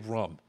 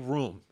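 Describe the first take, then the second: First: The vowel is short, as in 'book'. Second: The vowel is long, as in 'boom'. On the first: The speaker calls it wrong. "Don't say rum" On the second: The speaker calls it right. "Say room, everybody"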